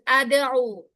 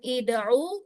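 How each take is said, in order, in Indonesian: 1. Kata ini diawali dengan vokal a. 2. Kata ini diawali dengan vokal i. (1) "bukan ada'u" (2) "bukan ida'u"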